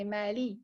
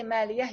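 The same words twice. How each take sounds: First: Mali ending cleanly on the i; mali said without any yah ending, as the right form; mali, short clean ending; correct form. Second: Maliyah with a final yah and breathy h added; wrong ending. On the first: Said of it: "you say mali". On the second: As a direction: maliyah said with the extra ending, as a learner should not. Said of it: "You would not say maliyah". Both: Shown as a demonstration.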